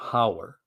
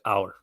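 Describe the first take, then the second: First: It starts with an h sound, said normally. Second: The h is dropped and it is said quickly. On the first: "rather than" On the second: "we'll say hour really quickly"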